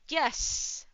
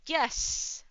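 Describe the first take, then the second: First: It is said loudly. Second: The same.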